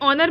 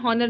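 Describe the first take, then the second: First: The word begins with a vowel sound. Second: The word begins with an h sound. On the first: The speaker calls it right. "ऑनर में ओ का sound आ रहा है" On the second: The speaker calls it wrong. "हॉनर लिख बोला नहीं जाता"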